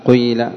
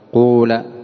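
First: The first vowel is i with a hint of u. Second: The first vowel is a pure u sound. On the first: "الثانية الإشمام ... إشمام الكسر شيئا من الضم" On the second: "الثالثة إخلاص ضم أوله"

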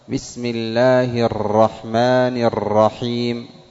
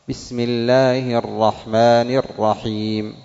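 First: The r sound is trilled with many taps. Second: The r sound is trilled with a moderate amount. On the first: The speaker calls it wrong. "إذا كررت أكثر" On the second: The speaker calls it right. "لكن الراء فيها تكرار"

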